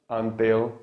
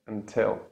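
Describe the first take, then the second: First: Blunt the T in "until" toward th; wrong T. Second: "until" with a crisp released T; true T. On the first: Teacher shows learners what not to say, wrong T. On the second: Teacher gives the corrected word, true T. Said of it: "the true T". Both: Shown as a demonstration.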